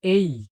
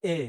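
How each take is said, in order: First: "এই" drawn out with a glide into ee; correct letter A. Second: Plain short "এ" with no glide at the end; common wrong A. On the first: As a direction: stretch "এই" as a diphthong, ey. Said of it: "শুদ্ধ উচ্চারণ হবে". ("এই" টেনে শুদ্ধ উচ্চারণ) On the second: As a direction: say "এ" as one pure vowel, the way learners wrongly do. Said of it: "এটিকে বলা হয় এ". ("এ" ছোট, টানহীন ভুল উচ্চারণ) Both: Shown as a demonstration.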